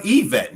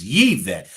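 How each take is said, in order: First: Said in the usual way. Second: "Yvette" with a sounded Y, Yee-vet, lower; corrected pronunciation. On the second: Shown as a demonstration. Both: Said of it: "I messed up Yvette name".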